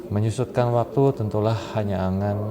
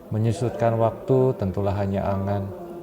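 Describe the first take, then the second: No difference in how they are said.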